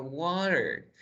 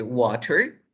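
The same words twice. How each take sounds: First: "water" with the T turned into a soft tap R, "wader"; relaxed American "water"; natural flapped T. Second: "water" with a clear, crisp T; over-careful textbook "water"; dictionary pronunciation. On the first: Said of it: "más natural en inglés decir water". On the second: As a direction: say "water" stiffly, T fully pronounced. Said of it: "a decir water". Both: Shown as a demonstration.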